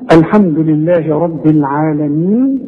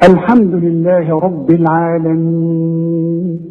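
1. يُمَدّ الحرف الممدود الأخير حركتين. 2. يُمَدّ الحرف الممدود الأخير أربع حركات. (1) "حركتين" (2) "واربعة"

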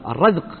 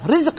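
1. الحركة الأولى هي a، كما في razq. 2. الحركة الأولى هي i، كما في rizq. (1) "ليس بالكسر وإنما بالفتح" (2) "مو رزق"

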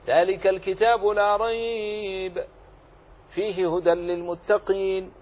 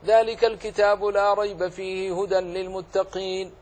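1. الوقف بعد كلمة rayb فقط. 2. لا وقف فيه، يُقرأ متصلاً. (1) "جاز لك أن تقف على الأول" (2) "ولم تقف على أي أحد منهما جاز لك"

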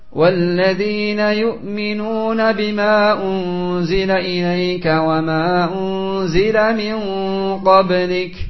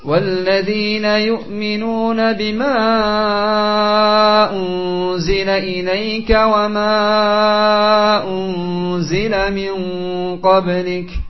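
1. Vokal yang bisa dipanjangkan dibaca hanya dua harakat. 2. Vokal yang bisa dipanjangkan dibaca empat sampai lima harakat. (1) "2 harakat saja dia baca" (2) "dipanjangkan 4 sampai 5 harakat"

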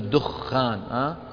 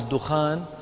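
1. صوت kh مشدد ومطوّل. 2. صوت kh قصير وخفيف. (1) "الناس في العامية يقولون الدخان بتشديد الإيش؟ الخاء" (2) "بضم الدال والخاء المخففة"

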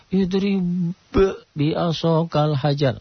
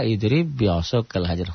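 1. Huruf b dilepas dengan pantulan yang terpisah. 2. Huruf b menyatu dengan b ganda setelahnya. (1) "Kan kalau enggak tahu jadi" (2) "huruf sifat kol-kolahnya jadi hilang"

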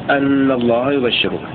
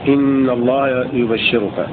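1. تبدأ الكلمة الأولى بالصوت a. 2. تبدأ الكلمة الأولى بالصوت i. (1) "بفتحها" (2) "بكسر الهمزة"

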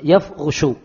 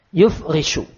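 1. Vokal pertama adalah a, r memakai u. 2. Vokal pertama adalah u, r memakai i. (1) "ya-nya di fathah, ra-nya di dhamma" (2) "kalau roknya dikasrah berarti wazannya af'ala"

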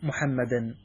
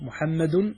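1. الكلمة تنتهي بصوت -an. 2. الكلمة تنتهي بصوت -un. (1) "والنصب على تقدير أمدحه" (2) "بالرفع على أنه خبر لمبتدأ محذوف تقديره هو"

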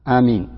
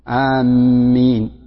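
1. الحرف الأول مقصور والميم مفردة. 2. الميم مشددة ويُطال نطقها. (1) "مثل يمين بدون مد أولها" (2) "بتشديد الميم"

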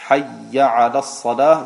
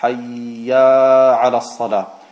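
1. Die Vokale behalten ihre normale Länge. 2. Ein zusätzlich langes a wird eingefügt. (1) "statt Hayya ala Salah" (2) "fügt dadurch ein Alef ein"

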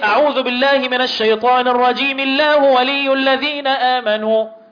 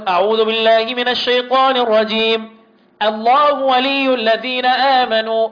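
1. يستمر الكلام مباشرة بدون وقف بعد الرجيم. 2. يوجد وقف واضح بعد الرجيم.

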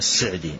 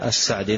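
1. المقطع الأول يُنطق بالكسرة 'i'. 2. المقطع الأول يُنطق بالفتحة 'a'. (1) "لكن هو ضبطه عبد الرحمن بن سعدي أو الشيخ عبد الرحمن السعدي هكذا" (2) "أحيانا أقول السعدي يعني يأتي على لساني السعدي"

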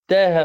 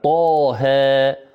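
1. الحرف الأول خفيف ومرقّق. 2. الحرف الأول ثقيل ومفخّم. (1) "لم يعطيها صفتها التي هي الاستعلاء والتفخيم" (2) "الطاء مثلا مفخمة ومن الحروف المستعلية"

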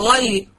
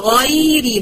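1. الكلمة كلها تُقال مفخمة. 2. الحرف الأول فقط مفخم، والباقي مرقق. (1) "مش أقول غيري، غيري مش هفخمها كلها كده" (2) "يبقى أقول غيري"

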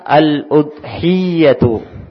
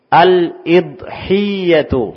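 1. Vokal pertama adalah bunyi u. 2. Vokal pertama adalah bunyi i. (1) "dengan dhammah" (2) "Boleh juga kita menyebutnya dengan kasrah"

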